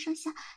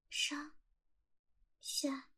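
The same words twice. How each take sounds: First: The words are counted at a fast, rushed pace. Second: The words are counted at a slow, even pace.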